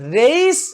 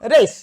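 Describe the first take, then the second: First: The vowel is a plain e sound. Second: The vowel glides from e to i. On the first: The speaker calls it wrong. "রেস এমন নয়" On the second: The speaker calls it right. "এই এর উচ্চারণ"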